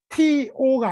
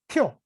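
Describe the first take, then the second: First: The word is said fully as two syllables. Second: The word is squeezed short into one syllable. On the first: "티오가 아니라" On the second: "티오를 아주 짧게 줄여서 발음한 거죠. 마치 한 음절처럼"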